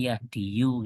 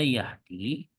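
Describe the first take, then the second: First: The word ends with an extra 'yu' syllable. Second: The word ends on a plain long 'i' sound. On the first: This is the underlying form with the implied final vowel. "diniatkannya itu seakan-akan Yahdiyu" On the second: This is how the word is actually pronounced. "Yahdi kan tulisannya seperti ini"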